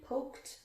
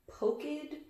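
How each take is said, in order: First: "poked" whispered as pokt; T ending. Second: "Poked" as poke-id, softer; wrong ID ending. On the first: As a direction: breathe "poked" ending on a crisp T. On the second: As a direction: quietly test "Poked" with an extra syllable. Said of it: "Which one?". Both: Shown as a demonstration.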